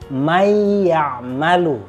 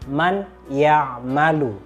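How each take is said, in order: First: The n sound merges into the following y. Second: The n sound is pronounced clearly before ya'malu. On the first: The speaker calls it right. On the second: The speaker calls it wrong.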